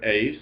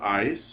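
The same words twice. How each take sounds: First: "eis" said like "ace"; epsilon iota as "ay". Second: "ice" said with a long i; epsilon iota as "eye". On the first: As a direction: say "eis" with the vowel of "day". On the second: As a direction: say "ice" with the vowel of "my". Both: Shown as a demonstration. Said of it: "pronounce that epsilon iota as either".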